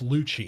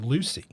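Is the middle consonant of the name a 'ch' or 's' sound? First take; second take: ch; s. First: The middle consonant is a ch sound. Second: The middle consonant is an s sound. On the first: The speaker calls it right. "Like it's Lucci" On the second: The speaker calls it wrong. "a lot of people... would pronounce it Lucy"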